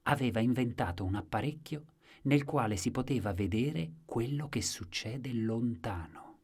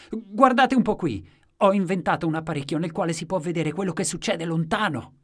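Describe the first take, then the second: First: Storyteller's explanation, slowing towards the end; measured narration. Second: Loud, high-pitched proclamation; excited exclamation. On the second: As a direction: show off to a whole crowd at full voice. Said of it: "ed esclamava". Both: A narrator's reading.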